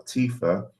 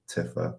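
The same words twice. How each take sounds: First: Tifa said TEE-fuh; current Tifa pronunciation. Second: Tifa said TIFF-uh; childhood Tifa pronunciation. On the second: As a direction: give Tifa a short I: TIFF-uh. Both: Shown as a demonstration. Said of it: "I used to call Tifa".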